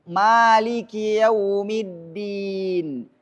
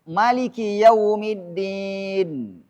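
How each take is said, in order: First: The first vowel of Maliki is long. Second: The first vowel of Maliki is short. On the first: "Dibaca panjang, cocok, elok, bagus" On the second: "kalau ini dibaca pendek, cocok, benar"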